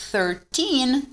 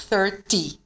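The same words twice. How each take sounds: First: Put-on "Thirteen" with long, stressed "teen"; "Thirteen" slowly, ending held. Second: "thirty" with a short, dry "ty"; "thirty" with a brief falling ending. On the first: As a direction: lean on the second syllable of "Thirteen", sounding the n. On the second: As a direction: end "thirty" quickly on "tee", no n. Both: Shown as a demonstration. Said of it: "a diferença na pronúncia".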